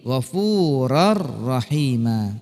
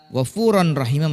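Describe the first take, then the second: First: The n merges into a doubled r sound. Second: The n sound is pronounced before the r.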